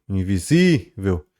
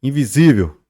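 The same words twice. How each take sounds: First: "invisível" slowly, with ZÍ stretched out; lengthened stressed syllable. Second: Said in the usual way. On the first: Shown as a demonstration. Teacher shows class the tonic syllable, stretched calling-out. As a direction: drag the stressed SÍ of "invisível", then drop the ending. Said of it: "um alongamento na pronúncia". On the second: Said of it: "como se a gente estivesse gritando".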